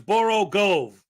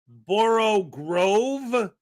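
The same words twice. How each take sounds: First: The second word has no R sound. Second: The second word has an R sound. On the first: It follows the actual spelling. The speaker calls it right. "there's no R in it. So it's Borough Grove" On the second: It sounds like a real word. The speaker calls it wrong. "my brain wants to say Borough Grove because at least a grove is a real thing"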